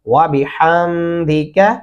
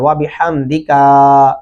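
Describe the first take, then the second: First: The final ka sound is kept short. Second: The final ka sound is drawn out long. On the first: The speaker calls it right. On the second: The speaker calls it wrong.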